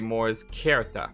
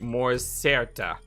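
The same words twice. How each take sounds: First: The C in certa sounds like K. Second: The C in certa sounds like S. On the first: The speaker calls it right. "you say mors certa because it's a K sound" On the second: The speaker calls it wrong. "you don't say mors certa"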